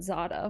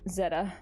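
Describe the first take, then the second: First: It is pronounced Zada. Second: It is pronounced Zeta. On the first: The speaker calls it wrong. "not Zada" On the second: The speaker calls it right. "Zeta, not Zada"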